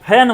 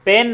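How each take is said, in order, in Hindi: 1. पहले व्यंजन में हवा का तेज़ झटका होता है। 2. पहले व्यंजन में हवा का कोई झटका नहीं होता। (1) "फैन बोलेंगे" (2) "पेन नहीं"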